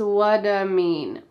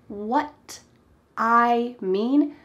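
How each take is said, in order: First: The T is softened and linked into 'I'. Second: The T in 'what' is said clearly and separately.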